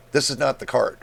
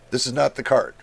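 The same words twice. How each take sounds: The two takes are said the same way.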